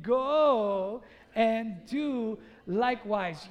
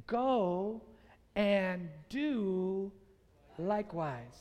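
First: Loud, very drawn-out rallying cry; like you mean it. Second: Deliberate delivery, pausing between phrases; measured quote. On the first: Preacher urging everyone to say it again, emphatic and loud. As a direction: stretch each word with full conviction. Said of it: "say it like you mean it". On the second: Preacher giving Jesus' four important words, measured and spaced out. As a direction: let the words fall away at the end. First take of the key words. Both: Shown as a demonstration.

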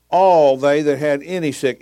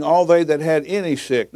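First: ALL drawn out and punched; slow down and lean hard on all; slow re-reading, heavy weight on all; stress on ALL. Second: Said in the usual way. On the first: Shown as a demonstration. Repeats verse after "notice that.

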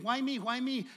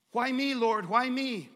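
First: Said in the usual way. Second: Higher, louder complaint; mock exasperated cry; loud pleading. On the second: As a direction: plead loudly, whining to the Lord.

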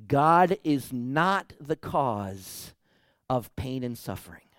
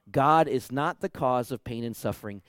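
First: Very slow, each word weighted; slow emphatic statement. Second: Said in the usual way. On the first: Shown as a demonstration. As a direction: lay it down slowly, word by word.

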